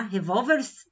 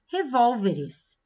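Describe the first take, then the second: First: "revólvers" sem o E, terminando em R e S colados; plural errado, meio americano. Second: "revólveres" com o E antes do S final; plural correto. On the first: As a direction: juntar o RS no fim de "revólvers". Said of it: "não dá, né? Fica meio americano". (som estrangeirado, "revólvers" sem a vogal final) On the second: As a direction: dizer "revólveres" devagar, com a última sílaba -es. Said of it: "Revólvers não dá". (plural correto, com o E pronunciado em "revólveres") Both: Shown as a demonstration.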